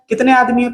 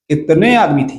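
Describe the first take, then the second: First: It is said in his normal voice. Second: It is said in a Gabbar impression.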